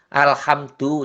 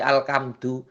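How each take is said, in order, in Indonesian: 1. Konsonan di tengah itu bunyi h yang berembus. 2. Konsonan di tengah itu bunyi k yang keras.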